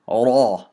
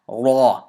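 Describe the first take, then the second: First: The r sound is heavy and full. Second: The r sound is heavy and full.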